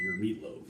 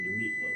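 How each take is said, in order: First: Said in the usual way. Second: "your meatloaf" jumps to a much higher squeaky pitch; suggestive squeak. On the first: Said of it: "I mean, your meatloaf". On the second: Shown as a demonstration. Vlogger teasing Gordon with an innuendo, squeaking high. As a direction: make "meatloaf" sound like an innuendo. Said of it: "Not like that kind of meatloaf".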